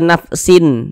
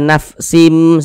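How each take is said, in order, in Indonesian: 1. Bunyi sengau akhirnya adalah bunyi n. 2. Bunyi sengau akhirnya adalah bunyi m. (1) "Jangan dibaca nafsin" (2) "Tapi dibaca nafsim seperti itu"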